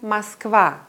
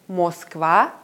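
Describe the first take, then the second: First: The first vowel is a short, weak a. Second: The first vowel is a full, clear o. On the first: The speaker calls it right. "sondern Moskwa" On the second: The speaker calls it wrong. "Ich sage also nicht Moskwa"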